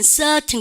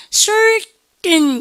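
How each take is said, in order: First: CERTAIN with a long "ah"-like vowel for the R, crisp T; British silent R. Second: CERTAIN drawn out loud, R curled in the first syllable; R sounded in certain. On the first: Teacher contrasting accents for the class, "certain" R-less with T sounded. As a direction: say "certain" without the R, keeping the T. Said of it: "R이라고 하지 않고 여러분들 아 발음에". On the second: Teacher contrasting accents for the class, "certain" with a full R. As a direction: stretch "certain" with a strong R and separate final syllable. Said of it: "이렇게 합니까? 아니면". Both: Shown as a demonstration.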